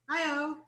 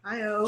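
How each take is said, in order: First: It is said in her normal, higher voice. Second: It is said in a low, deep voice.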